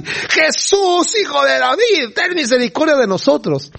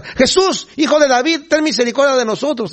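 First: Gritos más insistentes. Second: High-pitched mock yelling; imitando gritos. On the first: Acted. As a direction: escalate into a frantic acted cry. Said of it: "se aceleraron más y". (gritando con desesperación fingida, muy agudo) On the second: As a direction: act out blind beggars calling for help, high and urgent. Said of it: "Y empiezan a gritar". (gritos imitados, muy agudos)

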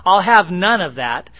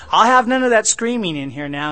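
First: Loud, joking order to the wife; mock stern yell. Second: Higher, louder, shouting through laughter; laughing mock shout. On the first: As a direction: bark it out as a joke, no real anger. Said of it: "I was just kidding my wife". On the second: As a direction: yell it while cracking up at the joke. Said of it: "I'm laughing because".

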